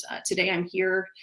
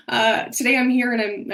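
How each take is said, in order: First: Said in the usual way. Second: Higher and louder, voice full of real emotion; emotional. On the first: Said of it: "Sorry, I'm getting emotional". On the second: Real, not acted. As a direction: push the words out through tears. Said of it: "I didn't expect myself to get emotional".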